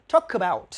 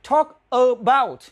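First: Quick linked reading. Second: Slow, separated words. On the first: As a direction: TALK ABOUT run together quickly as one word. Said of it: "đọc nhanh lên thì là". (đọc nhanh, nối liền talk about) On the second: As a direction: TALK ABOUT said slowly, word by word. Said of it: "nhưng đọc nhanh lên thì". (nói Talk about chậm, tách từng từ) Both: Shown as a demonstration.

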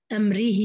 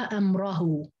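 First: أمره as amrihi, i after r; kasra on the ra. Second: أمره as amrahu, a after r; fatha on the ra. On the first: Teacher showing Hafs's reading, ra with i. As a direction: end أمره in ri-hi. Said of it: "بالخفض يعني بالجر". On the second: Teacher showing other readers' form, ra with a. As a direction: end أمره in ra-hu. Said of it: "باقي القراء قرأوها". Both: Shown as a demonstration.

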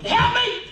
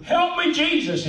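First: Sudden very high, cut-short yelp; comic high-pitched holler for help; hollered panic. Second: High, gliding down as if slowly sinking; hammed-up cry fading downward; mock drawn-out plea. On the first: Acted. Preacher as Peter going under fast, high panicked holler. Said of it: "he hollered". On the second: Preacher mimicking Peter's slow sinking, high mock plea. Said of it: "this picture of, of Peter going".

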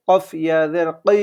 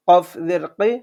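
First: Last কি as a long back "qee"; one-alif stretch. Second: Said in the usual way. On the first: Shown as a demonstration. Teacher reading examples to learners, final কি stretched. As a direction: hold the vowel of the final কি. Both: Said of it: "এক আলিফ টানিয়ে পড়বো".

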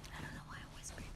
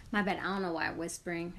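First: Quick unvoiced whisper; catching herself whispering. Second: Said in the usual way. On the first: Real, not acted. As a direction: whisper it, a bit rushed.

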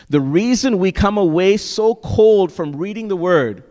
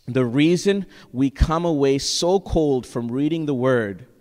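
First: "The reason we come away so cold" driven higher and louder; emphatic repeat. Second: Said in the usual way. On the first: Real, not acted. Preacher repeats a loved quote to his congregation, emphatically. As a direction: hit "so cold" hard, voice raised.

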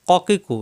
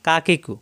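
First: Form each k of ক কি কু far back; qaf from tongue root. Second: কা কি কু with an ordinary light k; natural kaf. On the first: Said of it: "জিহ্বার গোড়া থেকে". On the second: Teacher contrasting two letters for students, ordinary light-k কা কি কু. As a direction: say কা কি কু further forward in the mouth. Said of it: "এটা স্বাভাবিক". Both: Shown as a demonstration.

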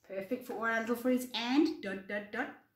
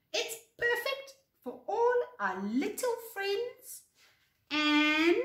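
First: Said in the usual way. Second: High-pitched, delighted storybook voice; cheerful high character voice; happy agreement. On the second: Acted. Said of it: "Floppy agreed happily".

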